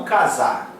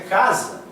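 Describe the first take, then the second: First: "casar" stressed on the final syllable, ca-SAR; wrongly stressed ca-SAR, for contrast; stress on last syllable. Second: "casa" stressed on the first syllable, CA-sa. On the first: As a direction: push the weight onto SAR in "casar". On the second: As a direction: say "casa" with the weight on CA. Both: Shown as a demonstration. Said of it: "a pronúncia é casa e não casar".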